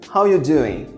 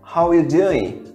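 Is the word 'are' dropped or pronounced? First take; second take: dropped; dropped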